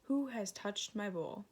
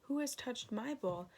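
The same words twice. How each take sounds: First: Lightly growled papa bear line; a hint of a gruff father bear; mild bear growl on the question. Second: Mother bear, pitched higher and fretful; a lightly voiced house-proud mother bear; higher, fussy mama bear question. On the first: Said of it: "And Father Bear growled". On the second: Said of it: "And Mother Bear growled". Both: A narrator's reading.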